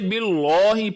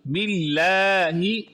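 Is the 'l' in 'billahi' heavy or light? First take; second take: heavy; light. First: The 'l' is heavy and thick. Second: The 'l' is light and thin. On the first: The speaker calls it wrong. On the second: The speaker calls it right.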